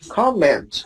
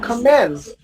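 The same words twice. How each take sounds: First: The stress is on the first syllable. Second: The stress is on the second syllable. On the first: The speaker calls it right. "Comment. Excellent" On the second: The speaker calls it wrong. "not comment"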